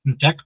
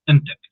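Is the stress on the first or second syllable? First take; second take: second; first. First: The stress is on the second syllable. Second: The stress is on the first syllable. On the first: The speaker calls it wrong. "not entek" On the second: The speaker calls it right. "the stress should be on the ent part"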